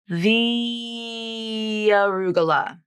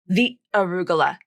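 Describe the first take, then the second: First: A smooth y-glide joins the two words. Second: A break separates the two words. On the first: The speaker calls it right. "it's very natural to just insert this little y sound to link those two words" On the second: The speaker calls it wrong. "It's not this"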